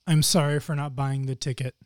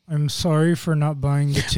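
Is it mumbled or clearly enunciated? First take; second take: enunciated; mumbled. First: It is said with clear enunciation. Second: It is mumbled without moving the mouth.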